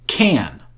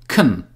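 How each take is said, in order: First: The word has a full, clear vowel. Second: The word has a short, reduced vowel. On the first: The word is stressed in the sentence. "the word can has strong pronunciation, which means that we pronounce it like can" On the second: The word is unstressed in the sentence. "the word can has weak pronunciation and sounds like kun"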